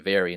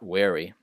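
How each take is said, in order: First: The word begins with a buzzing V sound. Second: The word begins with a rounded W sound. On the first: The speaker calls it right. "and very" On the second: The speaker calls it wrong. "not wary"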